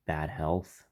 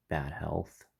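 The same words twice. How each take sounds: The two takes are said the same way.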